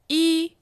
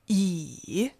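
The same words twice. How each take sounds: First: The pitch stays high and level. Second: The pitch dips low, then rises.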